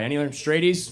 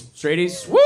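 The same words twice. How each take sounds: First: Said in the usual way. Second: Louder, rising "Straighties?" hollered to the crowd; rowdy rising shout of "Straighties?"; shouted callout. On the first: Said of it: "I'm straight guy". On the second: Real, not acted. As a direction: yell "Straighties?" up into a question to rally the room.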